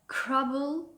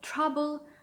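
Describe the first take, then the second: First: The word begins with a k sound. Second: The word begins with a t sound.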